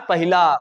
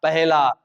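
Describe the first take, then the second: First: पहिला with an i after ह; teacher naming the error पहिला; wrong form. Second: पहला with no i after ह; teacher modelling पहला; correct form. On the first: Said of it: "not पहिला". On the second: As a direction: say पहला as peh-la. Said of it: "पहला है". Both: Shown as a demonstration.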